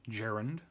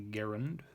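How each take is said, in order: First: "gerund" opening with a soft g, as in "gem"; j-sound g in "gerund"; soft-g pronunciation. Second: "gerund" opening with a hard g, as in "get"; hard-g pronunciation. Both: Shown as a demonstration. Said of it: "however you pronounce it".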